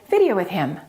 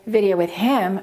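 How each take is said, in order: First: The word 'him' is reduced. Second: The word 'him' is said in full. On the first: The speaker calls it right. "We say" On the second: The speaker calls it wrong. "So that gets reduced. So we don't say"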